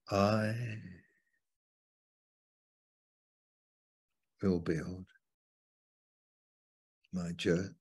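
The stress is on the word I.

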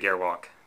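The word is said with English-style pronunciation. It follows a casual local adaptation of the name. "for us filthy foreigners, we can just say Gearwalk"

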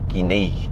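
The consonant is a 'zh' sound, regional accent. The speaker calls it wrong. "accentul ăsta de Buzău cu J în loc de Z"

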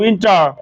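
It is said American style, with the r. "আমেরিকানরা আর এর উচ্চারণ যে নিয়ে আসবে"

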